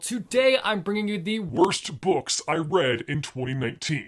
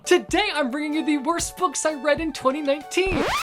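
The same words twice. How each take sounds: First: It is said in a harsh tone. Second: It is said in a happy tone.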